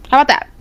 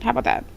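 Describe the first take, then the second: First: Challenging retort. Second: Muttered aside. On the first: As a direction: throw the question back at them. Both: Shown as a demonstration.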